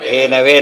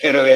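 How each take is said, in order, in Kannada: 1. ಎರಡನೇ ಸ್ವರ 'a' ಶಬ್ದ ಇದೆ. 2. ಎರಡನೇ ಸ್ವರ 'u' ಶಬ್ದ ಇದೆ. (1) "ಧೇನವೇ ಅಂತ ಹೇಳ್ಬೇಕು" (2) "ಧೇನುವೇ ಅಂತ ಹೇಳ್ಬಾರ್ದು"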